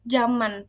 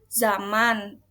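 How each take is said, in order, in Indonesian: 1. Kata ini diawali dengan bunyi j. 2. Kata ini diawali dengan bunyi z. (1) "kadang kita bacanya zaman pakai J" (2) "misalnya zaman"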